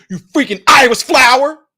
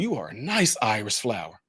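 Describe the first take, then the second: First: It is said in an angry, mad tone. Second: It is said in a pleased, admiring tone.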